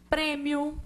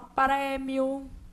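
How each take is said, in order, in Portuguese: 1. A vogal tônica é fechada. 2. A vogal tônica é aberta. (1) "porque a gente fala fechado" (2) "essas vogais são lidas como abertas"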